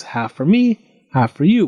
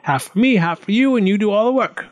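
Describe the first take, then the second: First: Mildly raised, persuasive offer; lightly voiced farmer proposing a deal; bargaining farmer. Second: High, eager goblin voice; pitched-up goblin exclamation; goblin's cry. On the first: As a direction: lay out a fair split, item by item. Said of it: "said the farmer, thinking quickly". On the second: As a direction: crow the deal in a high creature voice. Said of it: "cried the goblin". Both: A narrator's reading.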